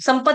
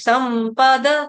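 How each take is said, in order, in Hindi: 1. अंतिम d बिना स्वर के बोला जाता है। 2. अंतिम d के बाद एक छोटा स्वर आता है। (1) "संपद नहीं पढ़ेंगे। ... द आधा, आधा आ जाएगा" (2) "द पूरा है"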